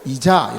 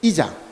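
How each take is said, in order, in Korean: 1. 강세는 첫 음절에 있지 않아요. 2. 강세는 첫 음절에 있어요. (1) "이자가 아니고 이자 이렇게" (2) "앞에 억양을 뒀거든요"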